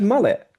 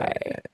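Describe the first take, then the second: First: The word is said in a clear voice. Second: The word is said with a creaky vocal fry. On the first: This is how the speaker really talks. The speaker calls it right. "I said mullet" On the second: This is the mocking imitation of the speaker. The speaker calls it wrong. "that would be if I said mullet"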